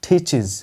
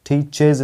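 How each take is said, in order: First: The first 't' has a puff of air. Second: The first 't' has no puff of air. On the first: The speaker calls it right. "पफ of air के साथ बोला जाता है" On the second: The speaker calls it wrong. "teaches नहीं"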